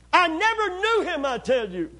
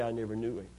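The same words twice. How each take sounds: First: Much higher and louder, protesting; insist, voice raised; loud denial. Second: Lower, softer denial; quiet denial. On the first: Peter denies again, loudly. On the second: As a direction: mutter the lie under your breath. Peter denying Jesus, told. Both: Acted.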